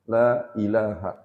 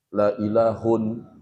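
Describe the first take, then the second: First: The last word ends with an -a sound. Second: The last word ends with an -un sound. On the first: The speaker calls it right. "Makanya dibacanya la ilaha" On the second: The speaker calls it wrong. "nggak boleh dibaca la haulun, la ilahun"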